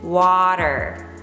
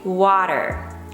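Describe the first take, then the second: First: The middle T is a soft D. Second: The same.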